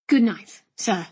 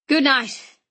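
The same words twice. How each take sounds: First: Lightly voiced, restrained "Good night"; polite nephew. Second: Hearty, emphatic GOOD NIGHT from an uncle. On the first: Nephew replying to his uncle, mildly deferential. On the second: Acted. Uncle to departing nephew, hearty good night. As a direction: call out "Good night" heartily, falling at the end.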